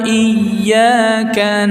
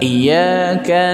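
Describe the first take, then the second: First: The y sound is doubled and held. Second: The y sound is single and short. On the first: Only you do we worship. The speaker calls it right. "hati-hati ya tasdidnya" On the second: It refers to a sun god. The speaker calls it wrong. "Jadi tidak ada tasydid"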